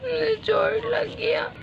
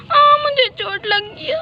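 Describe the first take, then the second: First: Soft, slow, breathy whimper; hushed hurt whimper. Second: High, slow wail of pain; mock pained wail; crying out hurt. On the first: Acted. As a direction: sob it quietly. Child hurt, whispered sob. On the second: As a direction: cry like a hurt little kid.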